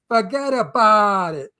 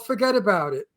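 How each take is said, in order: First: It is said with a strong Brooklyn accent. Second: It is said without a New York accent. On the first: The speaker calls it right. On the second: The speaker calls it wrong.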